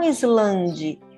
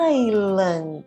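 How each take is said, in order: First: The s is sounded, said as spelled. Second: The s is silent, said like eye-land. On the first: The speaker calls it wrong. "não Islande" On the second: The speaker calls it right.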